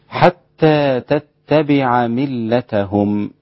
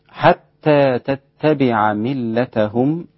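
No difference in how they are said.

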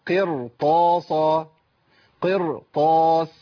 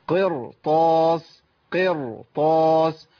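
Both takes have the same delivery.

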